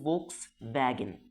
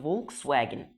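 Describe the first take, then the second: First: The second part starts with a V sound. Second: The second part starts with a W sound. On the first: This is the name as said in its home country. "وهي اصلا عربيه الماني فبنقول فولكس فاجن" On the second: This is the name as said in English. "هي فولكس واجن"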